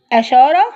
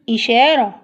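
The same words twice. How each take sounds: First: "أشارة" starting with a, rising as a question; wrong a vowel. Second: "إشارة" starting with a clear i, falling; settled reading of "إشارة" with opening i; correct i vowel. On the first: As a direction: say "أشارة" with fatha on the first letter, questioning. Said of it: "يبقى أشارة ولا إشارة؟". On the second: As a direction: say "إشارة" with kasra on the first letter. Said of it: "فنختار الإي". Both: Shown as a demonstration.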